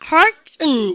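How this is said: It has an American accent, r and nasal ending. "R 발음하고 그 대신에 이거를 코소리 때리고"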